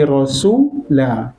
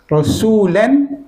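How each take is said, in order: First: The word ends with a long a vowel. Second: The word ends with an -an sound. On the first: The reader stops at this word. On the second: The reading continues past this word.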